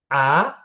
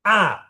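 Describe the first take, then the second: First: The pitch rises from middle to high. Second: The pitch falls sharply from high. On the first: "Nada dua dia naik" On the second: "Nada empat, turun"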